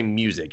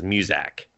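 First: Said in the usual way. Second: "muzak" with the second syllable said like "zak"; a toddler's "muzak" for music; kid's mispronunciation. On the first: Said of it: "He says muzak". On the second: Retold or imitated. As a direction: say "muzak", ending in "-zak" instead of "-zik". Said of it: "He doesn't say music".

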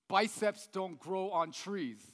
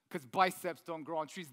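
First: Slow, weighty slogan read; slow poster slogan. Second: Said in the usual way. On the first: Shown as a demonstration. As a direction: read it like a gym poster motto. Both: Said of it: "you'll see a poster like this".

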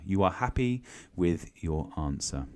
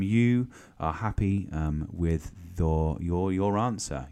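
First: Said in the usual way. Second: Slow and drawn out. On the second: Shown as a demonstration.

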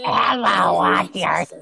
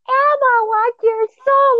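First: Possessed voice. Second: Very high, slow demonic squeal; satanic voice. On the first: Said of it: "high pitched for it to match the voice". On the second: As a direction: squeal it like a possessed toy. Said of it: "in a very, like, satanic voice". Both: Retold or imitated.

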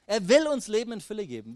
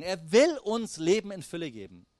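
First: Will stressed again, the line higher and more emphatic; Er will uns Leben in Fülle geben, pushed harder; stronger repeat. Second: Will leaned on, then a falling close; steady first statement of Er will uns Leben in Fülle geben; stress on will. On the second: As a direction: lean on will, let the sentence fall. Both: Shown as a demonstration. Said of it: "repeated line".

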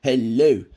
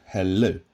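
First: "hello" pitched up and loud; Victor Meldrew impression. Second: Said in the usual way. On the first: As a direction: imitate his loud hello, higher and falling at the end. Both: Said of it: "the way he pronounces just the simple English word".

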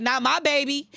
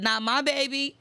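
First: A hint of a protective, firm voice, no laugh; firm quote. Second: Laughing as she quotes God protectively. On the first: Quoting God's protective words, lightly firm. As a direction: say it steady and sure, lightly voiced. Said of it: "He be like". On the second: Retold or imitated. Quoting God's protective words while laughing. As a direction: say it through a laugh, delighted. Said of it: "He said".

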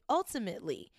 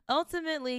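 First: Said in the usual way. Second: Ultimately said much higher, with a falling end; Ultimately pitched high and stressed; emphatic repeat. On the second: Shown as a demonstration. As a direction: hit the word Ultimately up high. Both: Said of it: "repeats word for emphasis".

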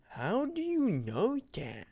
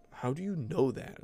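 First: High, drawn-out mocking imitation; jerky girl's challenge. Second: Slightly high, mild mocking challenge; toned-down jerky girl imitation. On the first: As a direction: imitate a bratty girl, stretched out and high. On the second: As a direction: lightly imitate a snotty girl's question. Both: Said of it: "She kinda did say it like that".

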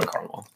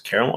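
First: "caramel" said as CAR-mul; two-syllable pronunciation. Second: "Caramel" said as CARE-uh-mel; full three-syllable pronunciation. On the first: Host weighing two ways to say the flavor, "caramel" as CAR-mul. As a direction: open "caramel" with "car", dropping the middle syllable. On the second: Host weighing two ways to say the flavor, "Caramel" as CARE-uh-mel. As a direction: open "Caramel" with "care", keeping the middle syllable. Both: Shown as a demonstration. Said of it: "Caramel or caramel?".

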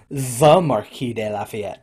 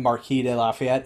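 First: "the" drawn out and weighted before the name; slow down and lean hard on "the"; stress on THE. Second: Said in the usual way. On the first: Shown as a demonstration. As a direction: make "the" a grand, deliberate title. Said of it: "even when you call him". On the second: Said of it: "it's the Marquis de Lafayette".

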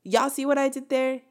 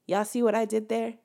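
First: Higher and punchier, what stressed; emphatic repeat. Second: Said in the usual way. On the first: Shown as a demonstration. Nudging viewers to catch her curse-word joke, emphatic. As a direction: say it again with more push on what.

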